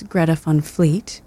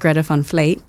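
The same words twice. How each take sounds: First: The name is pronounced with a plain English sound. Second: The name is pronounced with a Dutch-style sound. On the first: The speaker calls it right. "I've been informed it's" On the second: The speaker calls it wrong. "I pronounce it ... you say it in like a Dutch type of thing"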